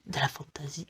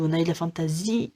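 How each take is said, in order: First: Very soft, hushed whisper; murmured low under the breath; whispered aside. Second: Said in the usual way. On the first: Real, not acted. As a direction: drop to a whisper, as an aside to yourself. Repeats the phrase hushed, aside.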